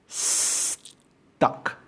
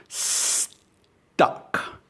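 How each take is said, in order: No difference in how they are said.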